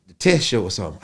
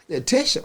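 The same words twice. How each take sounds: First: Said in the usual way. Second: "test" pitched much higher, rising into a question; incredulous echo. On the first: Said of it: "He said". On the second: Retold or imitated. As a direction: echo "The test show?" in disbelief. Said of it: "I said".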